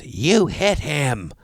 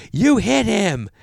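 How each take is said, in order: First: Very slow, drawn-out mock accusation; imitated yelling accuser. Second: High, loud mock yell; imitated yelling accuser. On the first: Woman accusing the golfer of hitting someone, mock yell. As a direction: stretch each word into an accusation, pitch raised. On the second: Woman repeating her accusation at the golfer, louder mock yell. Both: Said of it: "She's yelling at me".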